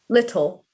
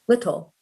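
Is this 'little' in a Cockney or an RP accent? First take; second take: RP; RP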